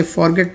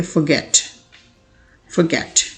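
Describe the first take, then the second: First: Forget with a strong FOR first syllable; wrong pronunciation. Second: Forget with a light fə first syllable; correct pronunciation. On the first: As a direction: show the mistake forget split as for and get. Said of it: "तो आप गलत पढ़ते हैं". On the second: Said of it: "correct pronunciation इसकी होती है". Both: Shown as a demonstration.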